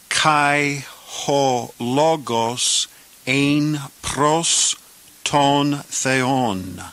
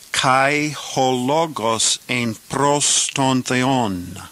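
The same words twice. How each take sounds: First: The clause is said at a slower pace. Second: The clause is said at a faster pace. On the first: "And now let's say this clause" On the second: "This time a little faster"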